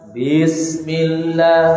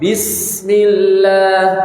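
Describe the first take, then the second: First: The vowel after the first b is drawn out. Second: The vowel after the first b is kept short. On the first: The speaker calls it wrong. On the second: The speaker calls it right.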